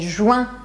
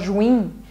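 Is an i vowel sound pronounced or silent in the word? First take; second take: silent; pronounced. First: No i vowel sound is pronounced. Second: An i vowel sound is pronounced. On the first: The speaker calls it right. "É juin" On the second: The speaker calls it wrong. "querem falar juin, mas a gente não pronuncia esse I"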